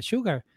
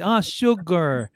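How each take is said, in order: First: Put-on "Sugar" in his own Spanish-accented way, pitched high; Miami-accented sugar. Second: "Ah, sugar" drawn out slow and higher, leaning on the G; slow, emphatic "Ah, sugar" with a stressed G; local pronunciation of sugar. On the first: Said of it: "mi pronunciación, yo venía con mi sugar de Miami". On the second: Retold or imitated. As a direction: stretch "sugar" like a local who finally understands, hard on the G. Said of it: "énfasis en la, en la G".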